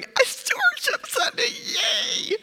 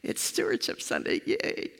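First: High squealing hammed-up cheer; exaggerated mock enthusiasm, much higher. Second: Soft, breathy, unimpressed yay; flatly mock the cheer from the beach; bored half-hearted yay, much softer; deadpan mock cheer. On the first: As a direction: squeal it like a fake-thrilled congregation. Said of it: "sitting there going". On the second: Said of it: "worshiping from a beach are going".

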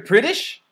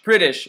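First: British? asked with a high rising tune, unsure; questioning rise. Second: British. said higher, landing on a firm falling tune; settled fall. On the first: Unsure of the word, asking his friend in a high rising question. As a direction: check the word British? with a lift at the end. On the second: Now sure, confirming the word to his friend with a firm fall. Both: Real, not acted.

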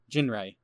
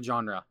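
First: "Genre" said as JIN-ray; mispronounced genre. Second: Said in the usual way. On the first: Real, not acted. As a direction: say "Genre" with a hard J and a RAY ending. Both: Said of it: "if we could pronounce words right".

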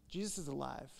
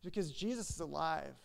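First: Softer, hushed restatement; quiet echo. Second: Said in the usual way. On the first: Shown as a demonstration. Pastor repeating to congregation, softer hushed echo. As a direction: let it settle, softly, almost to yourself. Repeated key line, echoed.

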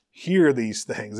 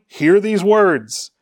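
First: Hear these things, slower and softer, leaning on Hear; soft slow echo. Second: Hear these words, slow and higher, falling on words; slow proclaimed command. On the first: Preacher echoing Peter's command to his congregation, soft and slow. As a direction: repeat it quietly to let it sink in. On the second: Peter commanding the crowd to hear, slow proclamation. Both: Shown as a demonstration.

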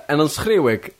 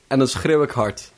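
First: Hammed-up lament, stretched out; mock dramatic. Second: Said in the usual way.

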